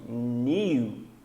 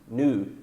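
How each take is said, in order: First: It is said with a British pronunciation. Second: It is said with an American pronunciation. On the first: "só que new vai ser no inglês britânico" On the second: "o inglês americano é U, new"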